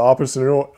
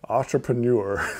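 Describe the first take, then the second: First: The word is said at normal quick speed. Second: The word is said slowly and carefully. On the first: The speaker calls it wrong. "I can never say that word right" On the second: The speaker calls it right. "I have to say it slower"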